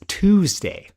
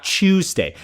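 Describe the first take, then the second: First: "Tuesday" with a plain T, TOOZ-day; own American pronunciation. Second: "Tuesday" with a CH sound, CHOOZ-day; rejected British pronunciation. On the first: Streamer demonstrating their own dialect, "Tuesday" as TOOZ-day. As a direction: say "Tuesday" as TOOZ-day, higher, falling at the end. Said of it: "No, I say Tues". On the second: Streamer contrasting the boss's British way, "Tuesday" as CHOOZ-day. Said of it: "Not Tuesday". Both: Shown as a demonstration.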